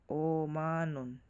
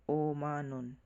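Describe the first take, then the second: Both takes have the same delivery.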